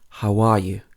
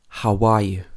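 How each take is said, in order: First: A glide sound links how and are. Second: A glide sound links how and are.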